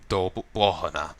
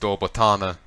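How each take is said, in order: First: The second word has an h sound in the middle. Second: The second word has a t sound in the middle. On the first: This is how the speaker was taught to say it. The speaker calls it right. "it should be Dol Bohana" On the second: This is how the game says it. The speaker calls it wrong. "they pronounce it ... Botana here"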